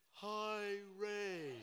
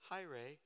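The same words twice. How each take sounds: First: It is said slowly, drawn out. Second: It is said at normal speed.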